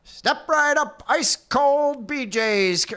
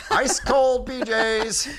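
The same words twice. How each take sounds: First: High, slow fairground call; old-timey carnival barker. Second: High, slow barker call; old-timey carnival barker. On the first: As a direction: cry it out like a sideshow barker. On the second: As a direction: hawk it like a fairground barker. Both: Pretend. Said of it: "Old-timey Carnival Barker".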